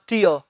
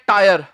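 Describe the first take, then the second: First: The vowel sounds like the one in 'tear'. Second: The vowel sounds like the one in 'tire'. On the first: The speaker calls it right. "इसका जो सही उच्चारण है वो है टीयर" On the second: The speaker calls it wrong. "बहुत से लोग इसे बोल देते हैं टायर... इसे टायर नहीं कहना"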